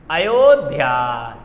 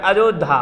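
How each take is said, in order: First: अयोध्या drawn out low as "a-yo-dhyaa"; correct pronunciation. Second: अयोध्या said as "ajodha", with j for y; popular mispronunciation. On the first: Shown as a demonstration. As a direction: slowly show the y sounds in अयोध्या. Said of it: "शुद्ध अयोध्या ये होता है". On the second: Retold or imitated. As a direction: imitate the faulty "ajodha" for अयोध्या. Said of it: "लोग अयोध्या को अयोध्या कह देते हैं".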